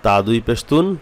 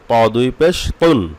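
First: Said in the usual way. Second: Slow, "তুন" with a thick t, as "tawn"; heavy taw. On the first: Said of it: "হরফের মধ্যে পার্থক্য সৃষ্টি করতে হবে". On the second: Shown as a demonstration. Teacher making two letters differ, slow heavy "তুন". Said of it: "ত যেমন মোটা হবে".

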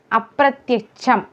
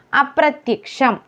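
First: അപ്രത്യക്ഷം with "ch" for "ksh"; wrong pronunciation. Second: അപ്രത്യക്ഷം with a clear "ksh"; correct pronunciation. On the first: Teacher showing the mistake, "ch" in അപ്രത്യക്ഷം. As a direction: say അപ്രത്യക്ഷം as "apratyacham". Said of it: "ക്ഷ്യം എന്നല്ല". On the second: Teacher modelling the word, full "ksh" in അപ്രത്യക്ഷം. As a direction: sound k and sh in അപ്രത്യക്ഷം. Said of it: "ക്ഷം എന്നാണ്". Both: Shown as a demonstration.

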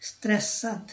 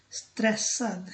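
No difference in how they are said.

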